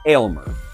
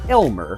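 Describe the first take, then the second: First: The name begins with a long 'ail' sound. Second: The name begins with a short 'el' sound. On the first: The speaker calls it right. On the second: The speaker calls it wrong.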